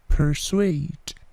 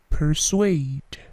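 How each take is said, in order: Both takes have the same delivery.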